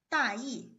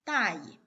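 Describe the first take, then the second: First: 大意 with full falling tones on both syllables; original full tone. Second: 大意 with 意 short, light and toneless; neutral tone. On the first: Teacher showing general idea, 大意 in full tones. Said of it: "if you read it in the neutral tone". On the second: Teacher showing careless, 大意 with neutral tone. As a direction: stress 大 and leave 意 unstressed in 大意. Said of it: "read it in the neutral tone". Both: Shown as a demonstration.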